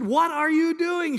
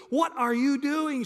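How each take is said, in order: First: "What are you doing?" higher and louder, each word drawn out; louder demanding bride. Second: A slow, higher, puzzled "What are you doing?"; puzzled bride. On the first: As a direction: lean in and demand it, alarmed. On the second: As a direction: ask it slowly, half awake and confused. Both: Retold or imitated. She got close and said.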